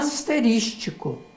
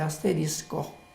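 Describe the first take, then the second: First: The word ends with an added -tico sound. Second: The word ends with a plain -isco sound. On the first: The speaker calls it wrong. "não tem necessidade de pronunciá-la errado" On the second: The speaker calls it right. "Mas a palavra certa é asterisco"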